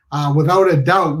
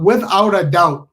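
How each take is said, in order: First: Said in the usual way. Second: "without a doubt" slowed down, every word leaned on; slow emphatic repeat. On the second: Shown as a demonstration. Storyteller swearing to the audience, "without a doubt" drawn out and stressed. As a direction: land each word of "without a doubt" slowly and firmly.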